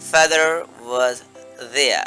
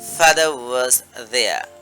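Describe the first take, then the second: First: It is said in an American accent. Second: It is said in a British accent. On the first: "আমেরিকানরা সেখানে বলবে" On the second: "ভেঙে বললে এইভাবে বলতে পারেন"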